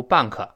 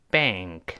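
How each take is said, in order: First: BANK said as "ban-ke" with an added vowel; mistaken pronunciation. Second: BANK drawn out with open "ae" into "ng-k"; careful model pronunciation. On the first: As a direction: mimic the learner's two-syllable BANK, "ban-kuh". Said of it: "注意不要读bank". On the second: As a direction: model BANK as one long syllable, "baengk". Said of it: "我们再读一下银行这个词". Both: Shown as a demonstration.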